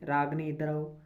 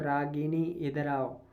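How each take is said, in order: First: The name has no vowel between 'g' and 'n'. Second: The name has an 'i' vowel between 'g' and 'n'. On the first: The speaker calls it wrong. "हम बोलते हैं रागनी" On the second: The speaker calls it right. "रागिनी होता है"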